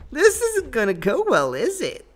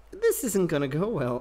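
First: Higher, louder put-on British-free cartoon voice; comic high-pitched gamer despair voice; mock high voice. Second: Said in the usual way. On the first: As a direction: whine it in a silly higher voice, louder. Mock voice after dying in fight.

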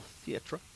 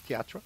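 First: "theatre," said as THEE-truh; theatre in two syllables. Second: "theatre," said as thee-AT-ruh with a rise; theatre in three syllables. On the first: Gamer reading about local listings, "theatre," pronounced THEE-truh. Says the word two ways. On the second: Gamer replaying the word for fun, "theatre," pronounced thee-AT-ruh. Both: Pretend.

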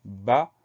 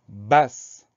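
First: "bas" with the final S left silent. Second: "basse" with a clearly heard final s sound. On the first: Teacher showing pupils the silent letter in "bas", silent final S. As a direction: say "bas" as one short open syllable, no S sound. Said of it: "on a une lettre muette". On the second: Teacher showing where the silent letter returns in "basse", final S sounded. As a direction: close "basse" on an audible sss. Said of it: "Lettre muette qu'on va retrouver quand on dit". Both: Shown as a demonstration.

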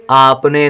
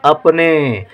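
First: आपने opening on a long "aa"; slow आपने with a drawn-out initial ā. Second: अपने opening on a short "uh" sound; carefully dictated अपने with short initial a. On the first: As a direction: stretch the first vowel of आपने. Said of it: "यदि बड़ा आ लिख देंगे तो हो जाएगा आपने". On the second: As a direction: keep the first vowel of अपने brief. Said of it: "अपने में छोटा आ लिखा जाएगा". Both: Shown as a demonstration.

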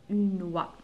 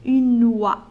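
First: Said in the usual way. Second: Une oie said loud; model word. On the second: Shown as a demonstration. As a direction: announce Une oie clearly to the class. (Une oie بصوت مرتفع) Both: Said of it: "يوزع".

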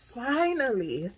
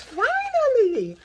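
First: Said in the usual way. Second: Finally cried out high, loud and slow; a long-awaited sigh of triumph; overjoyed finally. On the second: Real, not acted. Celebrating long-awaited orange bags.

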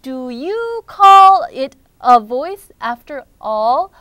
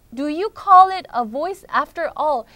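First: Very slow, loud, stretched "Do you call it a voice after all?"; dramatic lament. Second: Less drawn-out "Do you call it a voice after all?"; restrained lament. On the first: Rookie doubts his own voice, slow loud lament. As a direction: draw out "call" in loud despairing protest. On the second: Teacher repeats Rookie's question before translating, steadier and less dramatic. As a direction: repeat it more evenly, falling at the end. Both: Acted.

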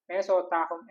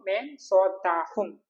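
First: Said in the usual way. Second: Slow, careful demo of മേ സോത്താ ഹും with each syllable drawn out; slow model phrase. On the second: Shown as a demonstration. Teacher modelling the Hindi phrase for students, slow and deliberate. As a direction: spell out മേ സോത്താ ഹും slowly for the learner. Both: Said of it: "ഞാൻ ഉറങ്ങുമോ?".

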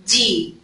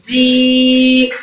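First: دي with a brief, unstretched ee; short vowel. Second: دي with the ee drawn right out; sustained دييي; long yaa vowel. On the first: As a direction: say دي short, without holding the vowel. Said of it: "ما مدتش". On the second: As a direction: hold دي long on a level note. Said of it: "لو مد بالياء". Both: Shown as a demonstration.

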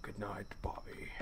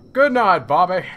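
First: Breathy ghostly whisper of the name; eerie whisper. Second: Loud good night. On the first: A ghost whispering good night to Bobby, eerie whisper. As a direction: hush it like a ghost at the bedside. Creepy whisper in horror game. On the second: Dad calling good night to Bobby, loud and cheery. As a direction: boom it out to the kid. Loud mock goodnight to the boy. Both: Acted.

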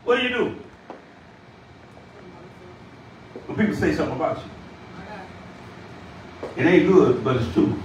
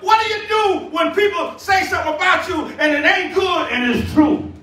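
First: Subdued repeat. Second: Raised, insistent pulpit question; ringing challenge from the preacher; impassioned preaching. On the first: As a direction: drop the pitch and let each phrase sink in. Same question repeated low, with pauses. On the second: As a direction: press the question on the congregation. Preached question, then repeated low. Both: Real, not acted.

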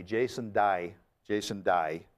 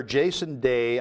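First: Australian "Day", said like "die"; Australian accent. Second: Said in the usual way. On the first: Shown as a demonstration. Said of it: "that's Aussie".

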